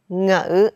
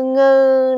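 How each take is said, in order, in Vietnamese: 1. Âm tiết này đọc với thanh nặng, trầm. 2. Âm tiết này đọc với thanh ngang.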